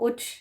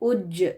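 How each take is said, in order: First: It ends in a voiceless ch sound. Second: It ends in a voiced j sound. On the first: The speaker calls it wrong. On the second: The speaker calls it right.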